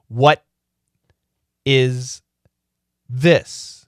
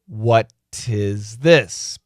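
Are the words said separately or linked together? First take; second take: separately; linked. First: The words are said separately. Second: The t sound links into the next word.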